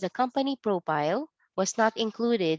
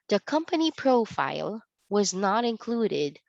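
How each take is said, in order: First: Profile is said with a P sound. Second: Profile is said with an F sound. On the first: The speaker calls it wrong. "it is read only as ... because we don't have the F sound" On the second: The speaker calls it right. "let me read it to you"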